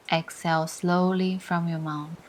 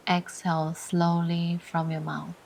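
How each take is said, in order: Both takes have the same delivery.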